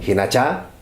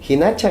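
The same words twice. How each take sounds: First: The stress is on the final syllable. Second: The stress is on the second-to-last syllable. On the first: It means that is how it will be. "si le ponemos nosotros eh, tilde a esta" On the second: It means that is how it is. "Hinacha es, asícito es"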